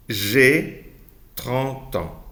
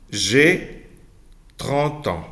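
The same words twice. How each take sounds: The two takes are said the same way.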